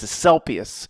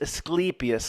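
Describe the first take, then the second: First: It is said in a Philadelphia accent. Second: It is said plainly, the middle like sleepy. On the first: "In Philly, it's Asclepius" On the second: "like you say, sleepy"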